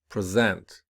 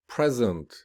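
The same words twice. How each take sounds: First: "present" with weak start, stressed second syllable. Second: Noun form, lean on the start of "Present"; stress on first syllable. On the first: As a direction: verb form, lean on the end of "present". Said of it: "whereas the verb will be". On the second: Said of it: "the noun will be". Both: Shown as a demonstration.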